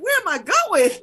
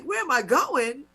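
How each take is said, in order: First: Loud, high indignant comeback; annoyed retort. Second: Drawn-out, mildly indignant echo of the question; annoyed retort. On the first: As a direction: fire the question back, high and loud, re-enacting annoyance. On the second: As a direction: repeat the cop's question slowly, a touch annoyed. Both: Retold or imitated. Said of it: "'cause I'm getting annoyed".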